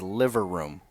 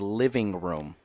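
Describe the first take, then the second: First: The first word is said as liver. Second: The first word is said as living. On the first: "She says liver room" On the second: "my mom doesn't say living room"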